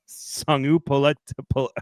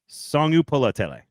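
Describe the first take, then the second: First: The name is broken off with stumbles. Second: The name is said in one smooth run. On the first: The speaker calls it wrong. "That is not correct" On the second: The speaker calls it right. "There we go. I got it right finally"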